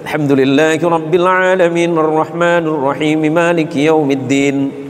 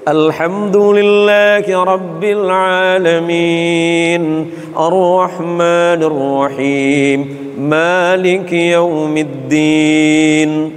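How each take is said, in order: First: It is recited quickly. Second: It is recited slowly and carefully. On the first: "Yang hadr" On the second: "Kalau tartil itu yang"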